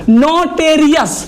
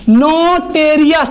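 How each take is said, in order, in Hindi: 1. दूसरे अक्षर में 'e' स्वर है। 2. दूसरे अक्षर में 'e' स्वर है।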